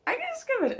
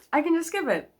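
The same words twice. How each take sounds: First: Much higher, squeaky delight; giddy high-pitched repeat; squealed glee. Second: Higher and bright with glee; happy little announcement; gleeful. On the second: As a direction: sing it out, pleased with yourself. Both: Real, not acted. Delighted at skipping scenes.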